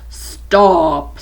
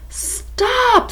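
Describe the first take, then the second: First: It is said in a cold, stern tone. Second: It is read in a plain, neutral tone.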